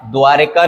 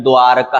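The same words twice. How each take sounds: First: द्वारिका with i in the middle, dwaa-ri-kaa; wrong pronunciation. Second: द्वारका with no i, dwaa-ra-kaa; correct pronunciation. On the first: Teacher showing the mistake, द्वारिका said as dwaa-ri-kaa. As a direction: say द्वारिका as dwaarika. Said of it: "नहीं है". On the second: Teacher correcting it, द्वारका said as dwaa-ra-kaa. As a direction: say द्वारका as dwaaraka. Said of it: "द्वारका है". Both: Shown as a demonstration.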